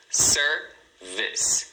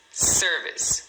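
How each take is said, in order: First: "service" split into SER, pause, VIS; "service" in two separate beats, ending on an S; two syllables. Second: Said in the usual way. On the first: Shown as a demonstration. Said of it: "você tem duas sílabas". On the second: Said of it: "Sendo a primeira a mais forte".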